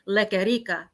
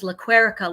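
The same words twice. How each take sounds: First: The name is pronounced the Spanish way. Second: The name is pronounced the English way. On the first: This is the original form of the name. "when she came over from Puerto Rico, it was Lequerica" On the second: "like America"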